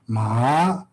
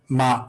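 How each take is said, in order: First: The pitch rises through the syllable. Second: The pitch stays level in the middle. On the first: "rising tone" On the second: "the regular tone is like"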